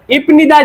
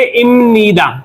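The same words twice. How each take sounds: First: Said in the usual way. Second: इमनिदा with m, not p, said a little slowly; pronounce it imnida. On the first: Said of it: "लिखा तो ये इपनिदा". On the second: Shown as a demonstration. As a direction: say इमनिदा with a clear m sound. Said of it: "इसको बोलेंगे इमनिदा". (इमनिदा को म के साथ धीरे बोलें)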